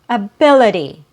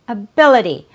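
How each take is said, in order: First: The middle consonant is a quick D sound. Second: The middle consonant is a quick D sound.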